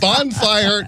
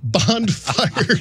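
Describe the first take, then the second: First: The word is said without a d sound. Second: The word is said with a d sound. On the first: The speaker calls it right. "It's bonfire" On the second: The speaker calls it wrong. "bonfire with a D"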